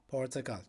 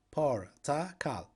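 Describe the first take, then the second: First: Said in the usual way. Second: "Portakal" slowly split, por, ta, kal; syllable by syllable. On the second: Shown as a demonstration. Teacher confirming the word for orange, "Portakal" syllable by syllable. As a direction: pause between each syllable of "Portakal".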